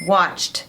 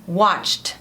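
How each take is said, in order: The two takes are said the same way.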